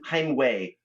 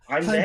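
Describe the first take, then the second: First: The second part starts with an English W sound. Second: The second part starts with a V sound. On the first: The speaker calls it wrong. "like way, you know, with a W instead of a V" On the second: The speaker calls it right. "is that close enough?"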